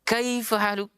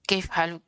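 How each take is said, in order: First: It is said at a steady, measured pace. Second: It is said quickly and clipped short. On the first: The speaker calls it right. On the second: The speaker calls it wrong. "terkadang kita membacanya terlalu cepat"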